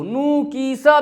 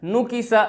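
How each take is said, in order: First: नुकीसा stretched to noo-kee-saa; drawn-out vowels. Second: नुकीसा quick, nu-ki-sa with short vowels; maruf, unstretched. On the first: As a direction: hold each vowel of नुकीसा long. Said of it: "भी नहीं पढ़ना". (नुकीसा खींचकर) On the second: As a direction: keep नुकीसा short and closed. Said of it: "मारूफ आवाज़ में". (नुकीसा मारूफ, बिना खींचे) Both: Shown as a demonstration.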